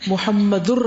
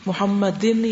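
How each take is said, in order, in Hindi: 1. यह शब्द -ur अक्षर पर खत्म होता है। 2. यह शब्द -in अक्षर पर खत्म होता है। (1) "प्रॉपर प्रोनाउंसिएशन" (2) "नहीं"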